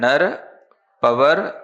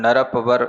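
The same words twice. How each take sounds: First: The two words are said with a break. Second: The two words run together without a break. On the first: The speaker calls it right. "ऐसे अलग अलग पढ़ना" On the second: The speaker calls it wrong. "ऐसे मत पढ़ना"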